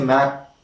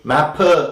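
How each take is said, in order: First: The final p is held without audible release. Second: The final p is released with an audible vowel. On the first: The speaker calls it right. "We always say map" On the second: The speaker calls it wrong. "We don't say mapper"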